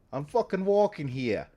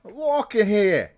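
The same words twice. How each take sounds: First: Put-on moderate New York accent, a bit higher; light New York street voice. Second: Put-on shouted New York accent, much higher and louder; hammed-up New York street yell. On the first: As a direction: say "walking" like a New York pedestrian, leaning on the word. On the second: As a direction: yell "walking" like an angry New Yorker stepping in front of a cab. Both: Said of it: "they know about the New York accent".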